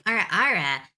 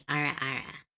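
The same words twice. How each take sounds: First: Louder, showy sultry catchphrase; sexy voice demo. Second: Lower, sultry anime-style catchphrase; deepened sexy voice. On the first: Streamer proving she can do the short catchphrase, showy sexy voice. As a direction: punch out the teasing catchphrase with confidence. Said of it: "I know how to do". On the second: Streamer trying out a suggested sexy voice, slightly deepened. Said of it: "Slightly deepen the voice and say". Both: Shown as a demonstration.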